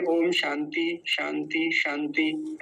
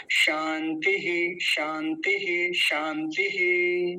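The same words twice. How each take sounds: First: शांति ending on the bare vowel; wrong pronunciation, visarga dropped. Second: शांति very slowly with an echoed हि; correct visarga on शांति. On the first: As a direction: show the mistake: शांति without final हि. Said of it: "नहीं तो कुछ लोग क्या बोलते हैं". (विसर्ग के बिना शांति का गलत उच्चारण) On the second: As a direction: stretch शांति and release the final visarga. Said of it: "ऐसा". (शांति में विसर्ग का धीमा सही उच्चारण) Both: Shown as a demonstration.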